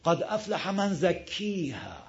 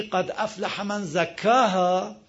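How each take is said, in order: First: "زکیها" drawn out with a long ee; major imala. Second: "زکاها" recited with a long open a; without imala. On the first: Teacher shows major imala, "زکیها" softer with full ee. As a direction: recite "زکیها" slowly as "zakkeeha". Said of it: "حالا تو کبرا". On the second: Teacher gives the standard reading, "زکاها" with full a. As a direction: say "زکاها" as "zakkaaha". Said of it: "مثلاً میگه که". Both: Shown as a demonstration.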